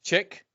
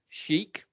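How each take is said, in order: First: The word begins with a 'ch' sound. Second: The word begins with an 'sh' sound. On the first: The speaker calls it wrong. "you instead pronounce it chick" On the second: The speaker calls it right. "pronounce the word chic"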